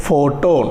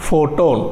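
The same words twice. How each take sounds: The two takes are said the same way.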